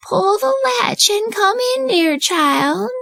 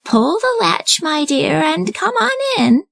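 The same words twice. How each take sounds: First: High, slow fake grandmother voice; a not-quite-right granny impersonation; wolf disguising his voice as grandmother; wolf faking granny. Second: Put-on high, slow old lady voice; high slow grandmother inviting her granddaughter in; kindly grandmother. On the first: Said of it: "disguised his voice, this time to sound like grandmother". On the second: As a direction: welcome her in like a sweet granny. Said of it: "said grandmother".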